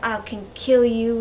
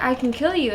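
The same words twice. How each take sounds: First: Bad mock Southern accent. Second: Said in the usual way. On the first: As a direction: threat in a hammed-up Southern accent. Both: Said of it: "I just did a southern accent for her".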